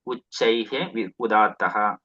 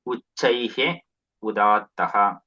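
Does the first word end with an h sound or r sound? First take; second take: h sound; h sound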